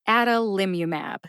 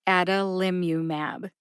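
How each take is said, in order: First: The first vowel is a short 'a' as in 'hat'. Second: The same.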